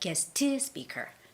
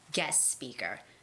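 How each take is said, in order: First: The T of guest is released with a vowel. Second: The T of guest is dropped before speaker. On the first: The speaker calls it wrong. "You don't have to say guest to speaker" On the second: The speaker calls it right. "you don't necessarily have to make that hard T sound"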